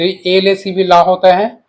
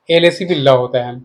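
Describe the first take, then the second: First: ला said with a long open "laa"; long-vowel pronunciation. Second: ल said with a short "luh"; short-vowel pronunciation. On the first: Teacher shows one reading of the spelling, ला with long aa. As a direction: draw out the vowel in ला, slowly. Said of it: "ला, ला पढ़ते हैं ना". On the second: Teacher shows the other reading of the spelling, ल with short a. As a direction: keep the vowel of ल short, not "laa". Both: Shown as a demonstration.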